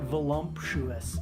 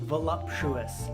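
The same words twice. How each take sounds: First: It is said with an M before the P. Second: It is said without an M before the P. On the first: The speaker calls it wrong. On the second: The speaker calls it right.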